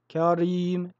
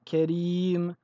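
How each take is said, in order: First: The r is heavy and full. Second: The r is light and thin. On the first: The speaker calls it wrong. "et non karim" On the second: The speaker calls it right. "Nous disons karim"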